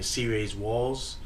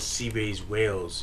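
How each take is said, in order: First: The last word rhymes with 'calls'. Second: The last word rhymes with 'nails'. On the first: The speaker calls it right. "Instead of saying C-Rays Walls" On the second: The speaker calls it wrong. "I said his name wrong"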